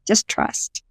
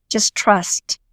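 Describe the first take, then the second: First: A soft whispered echo of her own advice. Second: Said in the usual way. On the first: Retold or imitated. Telling herself to trust the voices, whispered. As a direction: breathe it out as a whisper, almost to yourself. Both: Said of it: "I just thought to myself".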